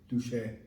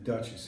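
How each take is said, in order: First: It is said with a French pronunciation. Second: It is said with an English pronunciation. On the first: "They Duche Anne" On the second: "they pronounce it different than Duchess"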